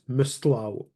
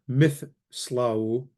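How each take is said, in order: First: It has an emphatic t after the s. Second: It has a th sound before the s. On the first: The speaker calls it right. "it's mistlau. If you can't hear the difference between the taith and the tau" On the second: The speaker calls it wrong. "So it's not mithslau"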